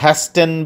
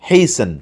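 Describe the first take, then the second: First: The t is sounded. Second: The t is silent. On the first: The speaker calls it wrong. "হ্যাস্টেন বলা যাবে না" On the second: The speaker calls it right. "বলতে হবে হেইসেন"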